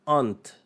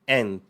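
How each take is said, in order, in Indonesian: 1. Kata ini diucapkan dengan aksen Inggris. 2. Kata ini diucapkan dengan aksen Amerika. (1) "Kalau di U K dibunyikan aunt" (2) "kalau di Amerika dibunyikan dengan ant"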